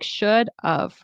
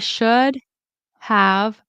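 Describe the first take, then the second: First: The word have is reduced to a weak of. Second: The word have is said fully with its v. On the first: "It kind of sounds like should of" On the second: "in careful speech"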